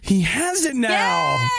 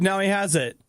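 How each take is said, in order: First: It is said in a lively, excited voice. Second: It is said in a flat, dull voice.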